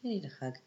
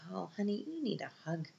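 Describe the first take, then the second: First: Quieter, settled pitying repeat; softer tender repeat. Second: Softer, higher, pitying coo; tender pity. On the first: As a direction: say it again gently, letting it fall. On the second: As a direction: coo it like comforting a sad teen. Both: Retold or imitated. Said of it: "I was like".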